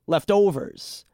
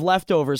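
First: "leftovers" drawn out with the emphasis moved onto "overs"; slow down and lean on "overs" in "leftovers"; imitating "left-OVERS"; misplaced stress. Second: Said in the usual way. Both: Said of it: "It's because of where he places the emphasis".

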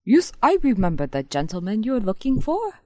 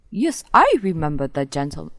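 First: Put-on a higher, louder second go at the Indian accent; the concierge in a retried, hammed-up Indian accent; second try at an Indian accent. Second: A clumsy put-on Indian accent, louder; the concierge in a hammed-up Indian accent; bad Indian accent. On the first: Concierge retrying the line for laughing friends, in a higher Indian accent. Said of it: "You can do it". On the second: Concierge answering the player, in a bad Indian accent. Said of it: "that was a really bad Indian accent".

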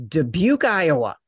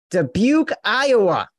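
First: Said in the usual way. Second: Mocking disbelief. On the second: Host repeats town name, mocking.

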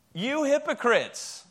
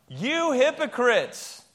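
First: Emphatic call-out. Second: Slow, loud call-out, each word hammered; loud slow shout. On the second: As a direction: shout it out like you mean it. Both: Shown as a demonstration. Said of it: "Say it really loud".

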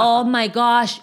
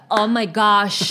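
First: Slow, drawn-out "Oh" in a lightly voiced American; a hint of an awed American; mock gringo gasp. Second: Slow, drawn-out gosh in a lightly voiced American; a hint of an awed American; mock gringo gasp. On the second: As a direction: stretch "gosh" like a polite tourist. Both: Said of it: "el que no dice God, sino gosh".

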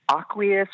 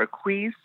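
First: "aqueous" as AH-kwee-us, stress up front; first pronunciation option. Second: "aqueous" as uh-KWEES, stress at the end; second pronunciation option. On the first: Stylist checking a product name, "aqueous" said AH-kwee-us. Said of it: "I always pronounce this wrong". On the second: Stylist asking which is right, "aqueous" said uh-KWEES. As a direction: say "aqueous" as two syllables, uh then a stressed KWEES. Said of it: "or maybe I'm pronouncing it right". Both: Shown as a demonstration.

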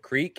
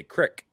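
First: Said in the usual way. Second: "crick" with a short i; short-vowel regional "crick". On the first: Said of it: "instead of creek". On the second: Retold or imitated. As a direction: say "crick", rhyming with brick. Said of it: "where they say crick".

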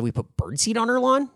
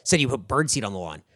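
First: Higher questioning repeat, rising at the end; feigned puzzlement. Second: Said in the usual way. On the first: Retold or imitated. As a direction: play dumb, echoing the accusation back as a question. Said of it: "just repeating it back". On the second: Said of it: "She said".

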